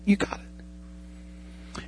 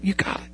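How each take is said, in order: First: A slow, drawn-out whisper of encouragement. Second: Quiet encouragement. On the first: Trainer easing the student pilot: slow whispered reassurance. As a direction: fade right down to a breath, very slowly. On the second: Trainer settling the student pilot: quiet encouragement. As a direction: say it softly, almost under the breath. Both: Pretend. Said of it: "he'll come alongside you and it's like".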